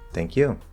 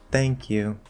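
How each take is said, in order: First: The word 'you' stands out with contrastive emphasis. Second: The word 'you' falls and is not emphasized. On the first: The thanks is passed back to the other person. "respond by saying the same thing with a different intonation" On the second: It is a polite first thanks. "it doesn't stand out on the you"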